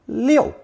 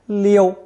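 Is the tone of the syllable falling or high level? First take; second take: falling; high level. First: The syllable is said with a sharply falling pitch. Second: The syllable is said on a high level pitch. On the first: "fourth tone" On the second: "first tone"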